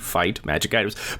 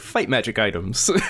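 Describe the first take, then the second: First: Three separate words, like a list of options. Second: One phrase, with fight magic describing items. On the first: They are three separate menu choices. "you mean like the, the options in an R P G" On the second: The items are of a fighting, magical kind. "I like to read it as if fight magic is an adjective"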